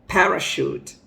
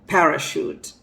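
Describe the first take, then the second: The two takes are said the same way.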